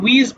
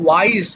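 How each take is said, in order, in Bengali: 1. স্বরধ্বনিটি 'ee' এর মতো শোনাচ্ছে। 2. স্বরধ্বনিটি 'eye' এর মতো শোনাচ্ছে। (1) "এটা অনেকে উইজ বলে ফেলি" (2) "ওয়াইজ মানে জ্ঞানী"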